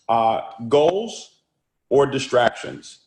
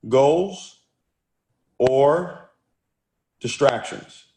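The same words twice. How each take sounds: First: Said in the usual way. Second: Goals, or, distractions? with a long pause before each word; dramatic pauses. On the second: Shown as a demonstration. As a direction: set Goals, or and distractions? apart with pauses like a teacher. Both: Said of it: "I want you to write this down".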